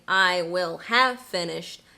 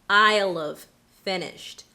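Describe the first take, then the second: First: Will and have are both said in full. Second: Both will and have are contracted together. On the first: "instead of saying" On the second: "a double contraction"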